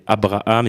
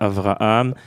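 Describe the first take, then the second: First: The middle consonant is a b sound. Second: The middle consonant is a v sound. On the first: "on ne prononçait pas la lettre vet" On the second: This pronunciation was not used in Tunisia. "et pas Avraham"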